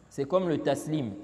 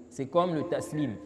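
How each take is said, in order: Both takes have the same delivery.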